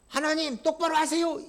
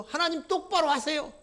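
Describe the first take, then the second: First: Mocking order, 똑바로 stressed; 똑바로 said as a cheeky mocking demand; insolent demand. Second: High, put-on sneering voice, 똑바로 stressed; mock God with a sneer on 똑바로; 똑바로 hit in a haughty, taunting voice; insolent mockery. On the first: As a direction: sneer 똑바로 at God. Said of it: "이따위 식으로 나갑니다". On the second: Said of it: "이따위 식으로 얘기를 하죠".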